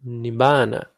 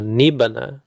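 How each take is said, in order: First: "nibbana" with long, stressed BAA; correct stress. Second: "nibbana" stressed on NIB, short ba; wrong stress. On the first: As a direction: land on the middle of "nibbana", nib-BAA-na, falling at the end. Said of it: "it's nibbana". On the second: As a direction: misplace the stress in "nibbana" onto the first syllable. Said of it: "it's not nibbana". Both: Shown as a demonstration.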